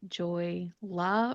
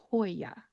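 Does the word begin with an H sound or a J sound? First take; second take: J sound; H sound. First: It begins with a J sound, with an L. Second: It begins with an H sound, with a Y. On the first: The speaker calls it wrong. "You might think it's Joy La" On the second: The speaker calls it right. "make that J into an H sound. The two L's are going to become a Y"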